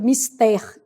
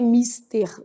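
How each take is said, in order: First: The stress is on the last syllable. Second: The stress is on the first syllable. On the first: The speaker calls it right. "elas são oxítonas" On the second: The speaker calls it wrong. "que o povo tem mania de falar"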